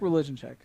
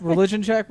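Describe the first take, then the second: First: Said in the usual way. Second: Questioning rise. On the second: Real, not acted.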